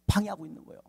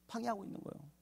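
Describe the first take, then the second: First: Said in the usual way. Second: Much softer, higher echo; near-whispered repetition for effect; hushed repeat. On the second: Real, not acted. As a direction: let it sink in softly.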